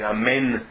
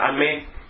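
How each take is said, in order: First: Every sound of the word is pronounced. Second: One sound of the word is swallowed. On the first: The speaker calls it right. "em vez de amém" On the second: The speaker calls it wrong. "uma pessoa que engole alguma das letras do amém"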